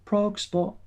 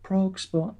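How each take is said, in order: First: High sung-out jingle tag. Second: High radio jingle sting; sing-song station ident; jingle voice again, high. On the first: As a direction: announce it like a radio jingle. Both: Pretend. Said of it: "imagine it's got a jingle".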